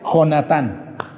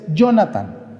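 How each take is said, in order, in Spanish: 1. El nombre empieza con un sonido de jota fuerte y gutural. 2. El nombre empieza con un sonido suave de Y. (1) "Si es con J" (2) "Si el jovenazo se llama Jonathan con Y"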